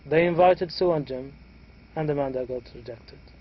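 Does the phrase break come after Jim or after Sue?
after Jim. The voice rises and breaks after Jim. Two people were invited and only one was rejected. "we had raising intonation for the first two participants"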